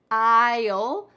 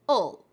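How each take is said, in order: First: The vowel is full and clearly pronounced. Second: The vowel is weak and shortened. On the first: "this is the very clear contraction" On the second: "even more reduced"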